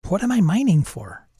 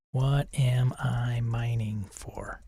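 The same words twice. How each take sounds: First: Said in the usual way. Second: Slow unvoiced whisper. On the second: Shown as a demonstration. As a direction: breathe the question slowly. Repeats prompt as whisper.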